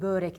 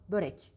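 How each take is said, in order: First: The first vowel ö is drawn out long. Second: The first vowel ö is kept short. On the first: The speaker calls it wrong. "Ne olur börek demeyin" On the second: The speaker calls it right. "Ö kısa"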